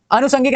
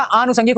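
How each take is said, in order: First: अनुषंगिक opened on short a; short first vowel. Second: आनुषंगिक opened on long aa; long first vowel. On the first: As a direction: keep the start of अनुषंगिक brief. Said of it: "नहीं होता". (अनुषंगिक, छोटा अ) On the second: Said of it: "आ की मात्रा होती है". (आनुषंगिक, लंबा आ) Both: Shown as a demonstration.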